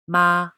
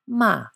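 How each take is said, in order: First: The pitch stays level and high. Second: The pitch falls sharply from high to low. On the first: "The first tone, ma, a flat note" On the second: "And fourth tone, ma, a falling note"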